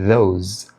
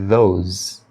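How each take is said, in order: No difference in how they are said.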